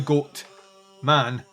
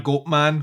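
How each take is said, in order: First: There is a short break between both words. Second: Both words run together without any break. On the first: The listener is being addressed as man. The speaker calls it right. "that's you will love the goat, man" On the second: It names a creature that is half goat, half man. The speaker calls it wrong. "not a goat man, which is terrifying when I say it like that"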